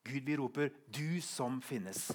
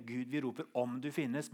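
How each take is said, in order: First: Slow, weighted "du som finnes"; stress on DU. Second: "om du finnes" set up for contrast; stress on OM. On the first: Preacher showing congregation the changed last verse, stress on "du". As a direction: draw out "du" as a firm address. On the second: Preacher showing congregation the first wording, stress on "om". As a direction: mark the doubting "om". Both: Shown as a demonstration. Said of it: "Merk forskjellen".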